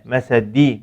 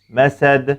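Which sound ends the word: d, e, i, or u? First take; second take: i; d. First: The word ends in a full i vowel. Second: The word ends in a strong bounced d. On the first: The speaker calls it wrong. "şekline benzetmeden" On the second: The speaker calls it right. "dilimi sadece dal harfinden geri çekiyorum ve kuvvetli bir sesin çıkmasını sağlıyorum"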